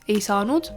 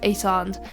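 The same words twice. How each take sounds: First: The ending is said in full as nud. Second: The ending is shortened to nd. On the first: The speaker calls it wrong. "We don't say nude" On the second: The speaker calls it right. "we say nd"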